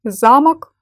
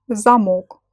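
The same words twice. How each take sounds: First: "замок" stressed on the first syllable, ZA-mok. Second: "замок" stressed on the last syllable, za-MOK; stress on second syllable. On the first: Teacher showing learners how stress changes meaning, "замок" stressed on ZA. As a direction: punch the ZA in "замок", second vowel reduced. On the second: Teacher showing learners how stress changes meaning, "замок" stressed on MOK. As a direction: land on a full O in "замок". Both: Shown as a demonstration. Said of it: "meaning of the word depends on it".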